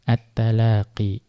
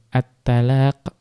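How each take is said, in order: First: The word ends with a long i vowel. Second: The word ends on the consonant q. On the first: This is the reading of one particular reciter. "membacanya dengan ya, tetap adanya ya" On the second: This is the reading of the majority of reciters. "at-talaq itu dibaca tanpa ya"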